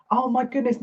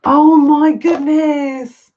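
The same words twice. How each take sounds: First: Said in the usual way. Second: Drawn-out, high, loud oh my goodness; awed exclamation. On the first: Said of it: "repeated, quieter". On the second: Real, not acted. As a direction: let the wonder stretch each word out. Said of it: "slow awed exclamation".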